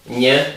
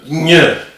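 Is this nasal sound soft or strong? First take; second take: soft; strong. First: The nasal sound is said softly. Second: The nasal sound is said strongly. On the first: This is the Spanish sound. "it's a little more soft" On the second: This is the Italian sound. "It's strong"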